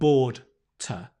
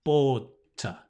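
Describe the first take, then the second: The two takes are said the same way.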